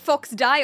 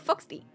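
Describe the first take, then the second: First: The last syllable sounds like 'die'. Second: The last syllable sounds like 'dee'. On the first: The name sounds aggressive. "Fox Die is quite aggressive" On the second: The name sounds cute. "It would be spelled Fox D E E"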